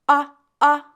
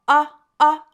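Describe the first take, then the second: Both takes have the same delivery.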